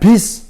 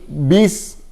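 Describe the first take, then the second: First: The s sound is short and clipped. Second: The s sound is held out longer. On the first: The speaker calls it wrong. "jangan bis" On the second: The speaker calls it right. "bis harus ditahan"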